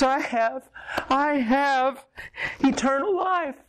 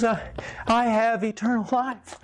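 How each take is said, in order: First: Climbing ever higher, voice breaking with wonder; each repeat rises as it sinks in; joyful disbelief, pitched way up; overwhelmed joy. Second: High, wondering, close to tears; he's just grasped it for the first time; stunned joy, voice lifted high; awed realization. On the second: Man's tearful moment of realization. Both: Retold or imitated.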